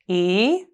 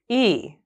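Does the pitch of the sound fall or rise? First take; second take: rise; fall. First: The pitch rises on the sound. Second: The pitch falls on the sound.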